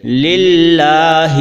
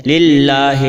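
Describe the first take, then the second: First: للہ sung very slowly, louder, with a clear Arabic ha; Arabic pronunciation. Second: للہ said slowly with the ha sounded majhool, the Urdu way; the wrong way: للہ with an Urdu-style ha, slowly; common wrong pronunciation. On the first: Teacher shows للہ the correct Arabic way, chanted. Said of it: "بلکہ عربی زبان میں یوں پڑھیں گے". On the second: Teacher imitates how people wrongly say للہ, Urdu style. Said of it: "ہا کو عام طور پر لوگ مجہول پڑھتے ہیں". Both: Shown as a demonstration.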